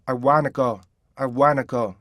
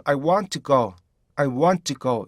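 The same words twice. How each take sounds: First: "want to" joined into wanna; easy, linked "wanna" with N only. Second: "want to" unlinked, two words; neat, clear T in "want to"; precise "want to go". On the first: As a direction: leave out the T in "wanna". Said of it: "연음화 시킨다면요". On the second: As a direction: keep the T in "want to" distinct. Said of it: "이게 가장 정확한 발음이고". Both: Shown as a demonstration.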